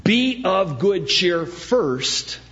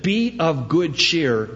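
First: "Be of good cheer first" slow with weight on each word; stress on first. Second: "Be of good cheer" slow and drawn out; stress on Be of good cheer. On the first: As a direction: spell out "first" slowly and deliberately. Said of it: "exhortation comes before the revelation". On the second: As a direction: lean on "Be of good cheer" to make it first. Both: Shown as a demonstration.

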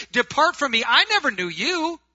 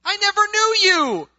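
First: Loud, raised-pitch dismissal; thundering rejection. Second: Shouted rejection. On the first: The Lord turning away churchgoers on judgment day, loud rejection. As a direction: cast them away with a loud, high voice. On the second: The Lord repeating his rejection to churchgoers, full shout. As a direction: bellow it at the top of the range. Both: Acted.

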